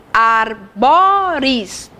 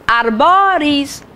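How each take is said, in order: First: "arboris" very slowly split as ar, bo, ris; syllable by syllable. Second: "Arboris" said slowly as one stretched word; slow teaching delivery of "Arboris"; slow, for counting. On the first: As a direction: break "arboris" into three long, separate syllables. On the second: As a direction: draw out "Arboris" so each syllable is clear. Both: Shown as a demonstration. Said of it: "três sílabas".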